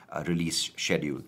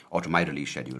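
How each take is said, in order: First: Said in the usual way. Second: My stressed in correction. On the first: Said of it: "or to my release schedule, rather". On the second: Shown as a demonstration. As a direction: lean on the word my.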